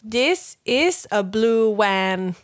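It is said with Thai-accented English intonation. "how she wanted me to read it was"

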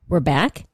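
It is said as a question, rising.

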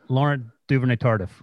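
The name is said with an English accent. The speaker calls it wrong. "That's what you said"

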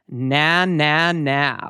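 The voice sounds full, open and brassy. The speaker calls it right. "we want to just say a nice, open, ugly, na, na, na. Like you're saying nasty"

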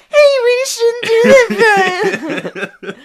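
It is said in a whiny mocking SpongeBob voice.

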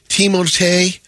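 The name is said the French way.

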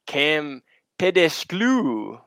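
It is said in an exaggerated put-on accent.

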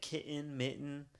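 It is said Midwest-style, with the T's swallowed.

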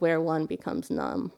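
It is said in a low, gravelly voice.

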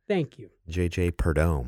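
The name is said in a French style. The speaker calls it wrong. "That's not how you pronounce it. French"

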